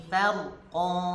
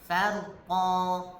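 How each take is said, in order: No difference in how they are said.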